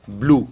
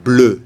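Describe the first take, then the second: First: English "blue" with an oo vowel; the English word blue, vowel oo; English pronunciation. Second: "bleu" with the French eu, lips in a kiss; firm, clear French "bleu"; French eu vowel. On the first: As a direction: say "blue" as in English, lips rounded on oo. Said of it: "Il ne faut pas confondre avec". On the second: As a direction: say "bleu" with rounded eu, never oo. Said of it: "c'est le E français". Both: Shown as a demonstration.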